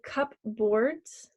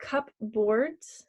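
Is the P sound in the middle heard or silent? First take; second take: heard; heard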